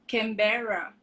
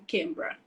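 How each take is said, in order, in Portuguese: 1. A palavra é dita com todas as sílabas completas. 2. A palavra é cortada, com as sílabas encurtadas. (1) "ao invés de ser Canberra" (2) "eles falam Canberra"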